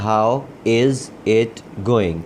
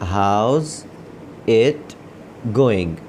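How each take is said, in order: First: How and is are said as separate words. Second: How and is are merged into one syllable. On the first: "ये असल में है" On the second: "हाउ इज़ को मिलाकर ये लोग हाउस पढ़ते हैं"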